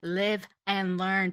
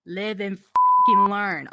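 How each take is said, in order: First: Said in the usual way. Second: Loud emphatic shout. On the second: Real, not acted. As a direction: yell it, fed up. Repeating phrase, louder.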